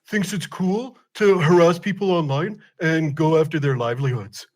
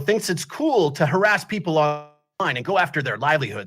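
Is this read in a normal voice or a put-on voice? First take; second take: put-on; normal. First: It is read in a put-on imitation voice. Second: It is read in the speaker's normal voice.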